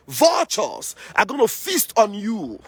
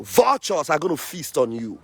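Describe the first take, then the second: First: Higher and slow, leaning hard on "Vultures"; heated threat. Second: Said in the usual way. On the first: Real, not acted. Activist warns the saboteurs, high slow emphasis on "Vultures". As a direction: drag out "Vultures are gonna feast on you" high and slow. Repeated threat, raised and slowed.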